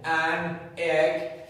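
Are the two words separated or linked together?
separated. The two words are said separately, robotically.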